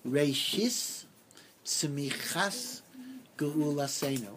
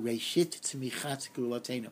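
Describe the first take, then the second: First: It is said in a traditional, non-Israeli Hebrew accent. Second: It is said in a modern Israeli Hebrew accent.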